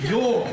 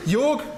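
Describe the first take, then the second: First: Said in the usual way. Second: Laughing. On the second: Real, not acted. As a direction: laugh while saying the name. Introducing colleague, starts laughing.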